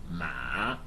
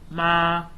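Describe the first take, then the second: First: The pitch dips low, then rises. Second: The pitch stays high and level. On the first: "the dipping tone" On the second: "the high tone"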